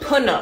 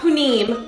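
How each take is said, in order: First: The second vowel sounds like uh. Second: The second vowel sounds like ih. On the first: The speaker calls it right. "Punam, not punim, punam" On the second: The speaker calls it wrong. "not punim"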